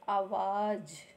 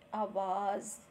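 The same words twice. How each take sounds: First: The last consonant is a plain j sound. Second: The last consonant is a z sound. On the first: "यहाँ पर किसी नुक्ते का इस्तेमाल नहीं हुआ है" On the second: "जब नुक्ता लग गया तो हम पढ़ेंगे"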